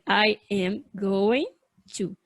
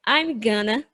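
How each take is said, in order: First: Every word is said fully and separately. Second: The words are contracted and blended into gonna. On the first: The speaker calls it wrong. "nunca, jamais, você vai ouvir o nativo pronunciar dessa maneira" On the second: The speaker calls it right. "Eles vão falar ou I'm gonna"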